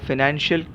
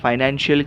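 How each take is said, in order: First: The first syllable has a short 'fi' vowel. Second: The first syllable has a long 'fai' vowel. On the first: "फी और फाई में अंतर हो सकता है" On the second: "कुछ कुछ लोग इसका उच्चार फाइनेंशियल भी करते हैं"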